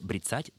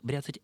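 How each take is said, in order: First: The stress is on the second syllable. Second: The stress is on the first syllable. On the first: The speaker calls it right. "ударение должно падать только на второй слог" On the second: The speaker calls it wrong. "ударение на первый слог «бряцать» — это неправильно"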